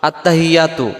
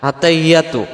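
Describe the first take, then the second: Both takes have the same delivery.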